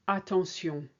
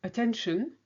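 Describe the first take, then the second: First: Attention ending in a French S and nasal vowel; French pronunciation. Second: Attention with an English shun ending, higher; English Attention for contrast; English pronunciation. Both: Shown as a demonstration.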